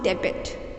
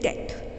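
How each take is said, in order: First: The B is sounded in the middle. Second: The B is silent, one short syllable. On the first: The speaker calls it wrong. "D E B T is not debit" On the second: The speaker calls it right. "The correct pronunciation is debt because B is silent here"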